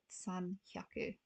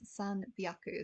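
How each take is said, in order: First: The second word starts with an h sound. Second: The second word starts with a b sound. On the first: The speaker calls it wrong. "not san hyaku" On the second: The speaker calls it right. "three hundred is san byaku"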